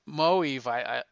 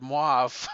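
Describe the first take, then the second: First: The name does not sound like the colour word. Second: The name sounds like the colour word mauve. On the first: This is the pronunciation someone else said is correct. The speaker calls it right. "That's how you pronounce it" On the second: This is the speaker's habitual pronunciation. The speaker calls it wrong. "I always said mauve"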